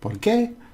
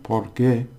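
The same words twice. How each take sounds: First: The stress falls on the second word. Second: The stress falls on the first word. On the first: It means why. "I put the stress on the end" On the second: It means because. "it stresses on the beginning"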